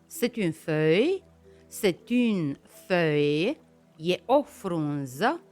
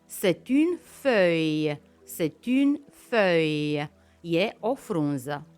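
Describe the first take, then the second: Both takes have the same delivery.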